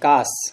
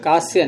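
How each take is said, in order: First: The word ends plainly on the 's' sound. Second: The word ends with an added 'ya' sound. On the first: The speaker calls it right. "कास, कास।" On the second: The speaker calls it wrong. "कास्य नहीं है"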